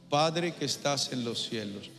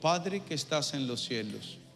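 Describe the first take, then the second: First: It is said loudly, with force. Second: It is said softly, without force.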